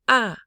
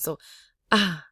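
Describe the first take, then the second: First: The vowel is said sharply, like an exclamation. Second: The vowel is said low with a breathy voice. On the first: "This is an exclamation mark tone" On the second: "this is the breathy low tone"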